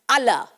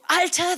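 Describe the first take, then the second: First: It is said in a Frankfurt accent, ending in -la. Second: It is said in standard German, ending in -ter.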